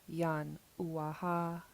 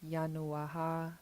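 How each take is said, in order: First: The air stops in the throat mid-word. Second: The sounds run together without a throat stop. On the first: The speaker calls it right. "but we stopped the air" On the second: The speaker calls it wrong. "If this period wasn't here and we didn't stop the air in our throats, we didn't do the glottal stop"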